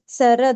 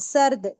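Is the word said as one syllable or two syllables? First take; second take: two syllables; one syllable. First: A vowel follows the r: two syllables. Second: The r closes the first syllable: one syllable. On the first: Every letter carries a vowel. "हर इस पर हरकत लगाकर" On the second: The letter carries a sign of no vowel. "सीन और रे की sound को एक आवाज बनाकर"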